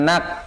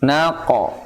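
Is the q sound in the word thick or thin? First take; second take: thin; thick. First: The q sound is light and thin. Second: The q sound is heavy and thick. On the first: The speaker calls it wrong. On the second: The speaker calls it right.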